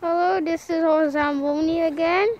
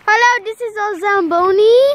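First: It is said quietly. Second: It is said loudly.

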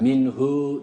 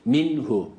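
First: The final vowel is drawn out long. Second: The final vowel is kept short. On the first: The speaker calls it wrong. "Minhu değil" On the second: The speaker calls it right. "Burada uzatma yok"

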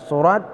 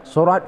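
Both takes have the same delivery.

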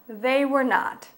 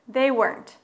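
First: The full form is said with separate words. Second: The negative is contracted into one word.

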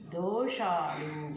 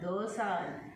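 First: The middle consonant is an 'sh' sound. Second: The middle consonant is a plain 's' sound. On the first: The speaker calls it right. "షా రావాలి" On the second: The speaker calls it wrong. "దోశలు కాదు, దోసాలు అంటే ఏంటి?"

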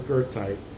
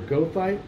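First: The first syllable follows the German surname. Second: The first syllable has a plain English sound. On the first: "the latter in honor of its namesake" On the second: "commonly pronounced as either goethite"

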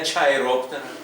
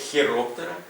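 First: The word begins with a ch sound. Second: The word begins with a kh sound. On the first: The speaker calls it wrong. "Не чайроптера" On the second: The speaker calls it right. "Комбінація CH вимовляється як Х"

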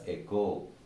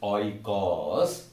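First: The word begins with an 'eh' sound. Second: The word begins with an 'oy' sound. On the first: The speaker calls it right. "it is actually pronounced as echo" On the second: The speaker calls it wrong. "we, most of us, have this bad habit of pronouncing it as oikos"

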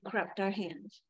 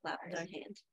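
First: The verb begins with an R-like sound. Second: The verb begins with a clear L sound. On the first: The speaker calls it wrong. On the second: The speaker calls it right.

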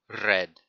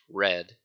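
First: The R is rolled. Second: The R is a plain English R. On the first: The speaker calls it right. "you need to make sure to roll the R" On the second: The speaker calls it wrong. "Now in English it's red"

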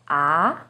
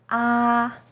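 First: The pitch starts mid and rises. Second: The pitch stays high and level. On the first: "Second tone, starts with a little lower pitch and goes up" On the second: "First tone, is high and steady"

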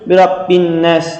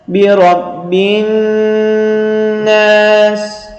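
First: The n sound is passed over quickly. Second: The n sound is held and lengthened. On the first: The speaker calls it wrong. "deyip geçmiyoruz hemen" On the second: The speaker calls it right. "şeklinde tutarak okuyoruz"

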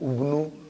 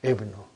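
First: The word begins with a u vowel. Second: The word begins with an i vowel. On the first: The speaker calls it wrong. "I will never say" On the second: The speaker calls it right. "It is Ibnu"

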